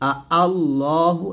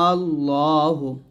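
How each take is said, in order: First: Two separate vowel onsets are heard, without lengthening. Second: The opening vowel is stretched long before the consonant. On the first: "তাসহিলে দুইটা হামজা উচ্চারণ করতে হবে" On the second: "টান দিয়ে লামকে ধরতে হবে"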